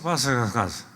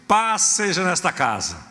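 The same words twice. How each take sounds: First: It is mumbled mechanically, like a mantra. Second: It is said firmly, with conviction.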